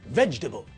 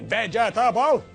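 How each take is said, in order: First: The word is said with three syllables. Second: The word is said with four syllables. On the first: The speaker calls it right. "The correct pronunciation of the word is vegetable, like this" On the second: The speaker calls it wrong. "We don't say vegetable"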